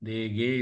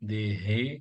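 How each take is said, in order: First: The middle consonant is a hard g sound. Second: The middle consonant is a breathy throat h. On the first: The speaker calls it wrong. "தேகே இல்ல" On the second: The speaker calls it right. "தொண்டையிலேருந்து வரணும்"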